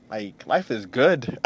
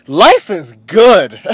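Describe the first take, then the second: First: Said in the usual way. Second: Life is good, louder and slow, leaning on life; savoring it the second time; slow emphatic repeat. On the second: Shown as a demonstration. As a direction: say Life is good again with full weight, slowly. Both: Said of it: "I'm gonna say that again".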